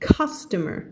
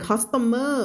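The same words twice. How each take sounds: First: CUSTOMER with CUS stressed, the rest reduced; correctly stressed CUSTOMER; first-syllable stress. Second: CUSTOMER said wrongly as "cos-ta-MER", end stretched; mispronounced CUSTOMER, every syllable full; wrong stress. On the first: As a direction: punch CUS and let "tomer" fall. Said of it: "stress อยู่ตรงไหน". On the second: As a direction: put the weight on the end of CUSTOMER. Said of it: "ไม่อ่าน". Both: Shown as a demonstration.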